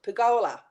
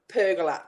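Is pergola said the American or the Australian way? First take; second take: Australian; American. First: It is said with an Australian pronunciation. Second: It is said with an American pronunciation. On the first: It is how it is said in Australia. The speaker calls it right. "in Australia we pronounce it pergola" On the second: It is how the man on television said it. The speaker calls it wrong. "That's all I kept hearing"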